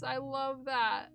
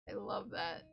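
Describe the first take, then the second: First: Said in the usual way. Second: Whispered echo of "I love that". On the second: Real, not acted. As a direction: repeat it in a whisper. Phrase said twice, second whispered.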